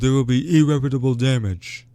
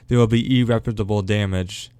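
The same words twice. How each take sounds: First: It is said in a put-on imitated voice. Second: It is said in the speaker's own voice.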